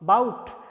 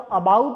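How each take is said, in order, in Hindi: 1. पहला स्वर लगभग गिरा हुआ है। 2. पहला स्वर पूरी तरह उच्चारित होता है। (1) "ये इसकी प्रोनाउंसिएशन है बाउट" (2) "अगर आप इसको अबाउट बोलते हैं तो ये गलत है"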